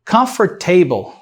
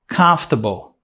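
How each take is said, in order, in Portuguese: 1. A tônica não está na primeira sílaba. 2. A tônica está na primeira sílaba. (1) "Não existe essa pronúncia" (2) "A primeira sílaba é a sílaba forte"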